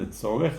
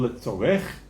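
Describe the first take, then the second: First: The stress is on the middle syllable. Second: The stress is on the last syllable, French-style.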